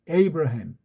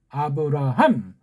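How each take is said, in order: First: The name starts with an English 'ay' sound. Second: The name starts with a plain 'a' sound. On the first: The speaker calls it wrong. "그렇게밖에 발음을 못합니다" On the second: The speaker calls it right. "그렇게 하는 게 좋아요"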